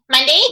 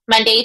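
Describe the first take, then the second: First: The voice sounds extremely bright and pinched. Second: The voice sounds somewhat bright and narrow. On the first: It clearly sounds like a character voice. "if I really push it... really charactery" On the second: It could still pass as a natural voice. "made the tube a little bit shorter... more narrow"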